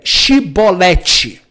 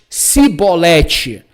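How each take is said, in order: First: The word begins with a hushing sh sound. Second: The word begins with a plain s sound. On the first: This is the form some tribes could not say. "não conseguia falar é, Shibolete" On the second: This is the form those tribes said instead. "mas Sibolete"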